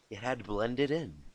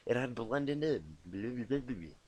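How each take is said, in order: First: Said in the usual way. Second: Slow reading. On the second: Shown as a demonstration.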